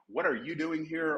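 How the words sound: It is said with a hostile sneer.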